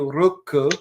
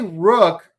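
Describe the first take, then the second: First: It is said as two Japanese syllables. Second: It is said as one English syllable. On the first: "with the Japanese pronunciation" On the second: "if you say Rook"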